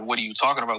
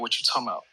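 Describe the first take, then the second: First: Every word is said fully and separately. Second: The words run together with a word dropped. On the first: This is the standard form. "instead of saying" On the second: This is how people from Atlanta say it. "We say"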